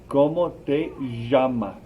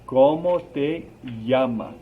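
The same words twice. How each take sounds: First: The 'll' in 'llamas' sounds like sh or zh. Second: The 'll' in 'llamas' sounds like English y. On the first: "there's other places that this double L sounds like a ja" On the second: "The double L right here is like a Y sound in English"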